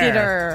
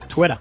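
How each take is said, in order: First: The word begins with a plain 't' sound. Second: The word begins with a clear 'tw' sound. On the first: The speaker calls it wrong. "It was a quick titter" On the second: The speaker calls it right. "Twitter is a pretty easy word to say"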